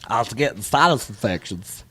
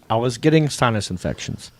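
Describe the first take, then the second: First: It is said in a stuffed-up, nasal imitated voice. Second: It is said in a plain voice.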